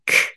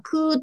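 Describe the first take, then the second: First: The k sound is said with no vowel. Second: A long vowel follows the k sound. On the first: The speaker calls it right. "くとかすっていう風にばらけて特徴ごとにやってあげることが大事" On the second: The speaker calls it wrong. "くーとかすーとか言わないで"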